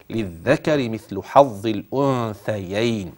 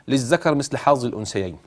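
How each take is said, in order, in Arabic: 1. تُنطق الأصوات 'dh' و'th' مع إخراج اللسان. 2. تُنطق الأصوات 'dh' و'th' دون إخراج اللسان. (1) "الصواب" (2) "وإن تعودت على العامية بهذه الطريقة ستنطق هكذا"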